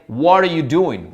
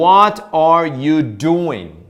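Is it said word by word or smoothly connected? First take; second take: connected; word by word. First: The words run together quickly. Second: Each word is said separately and slowly.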